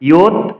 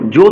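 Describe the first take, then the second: First: It begins with a 'y' sound. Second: It begins with a 'j' sound. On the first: The speaker calls it right. "ইয়ুত বলতে হবে দীর্ঘস্বর" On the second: The speaker calls it wrong. "জোত বলা যাবে না"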